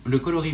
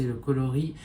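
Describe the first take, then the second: First: Coloris repris bien articulé, co-lo-ris; mot corrigé. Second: Coloris escamoté en « kli », syllabes mangées; mot avalé. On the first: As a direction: coloris redit nettement. (coloris prononcé clairement après l'erreur) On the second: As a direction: coloris bafouillé trop vite. (coloris mal articulé, à corriger) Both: Real, not acted. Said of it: "le coloris, pardon".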